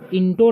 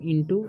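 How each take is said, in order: First: The word ends with an 'oh' sound. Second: The word ends with a long 'oo' sound. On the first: The speaker calls it wrong. "इंटो नहीं पढ़ना है" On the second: The speaker calls it right. "इसे पढ़ेंगे हम इंटू"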